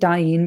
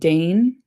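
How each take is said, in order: First: The vowel sounds like the one in 'Daim'. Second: The name is said the plain way, like 'Dane'. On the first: The speaker calls it right. "I'm going to pronounce it Dain" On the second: The speaker calls it wrong. "not Dane"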